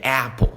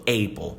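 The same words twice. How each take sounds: First: The first vowel sounds like an English vowel. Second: The first vowel sounds like a Portuguese vowel. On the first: The speaker calls it right. "Na verdade é apple" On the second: The speaker calls it wrong. "você já escutou alguém falando apple"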